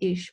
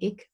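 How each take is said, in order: First: It is said with an Aachen regional pronunciation. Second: It is said with a Berlin regional pronunciation. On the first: The speaker comes from around Aachen. "all of the people in Aachen say ish" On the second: The speaker comes from around Berlin. "around Berlin, people say ik"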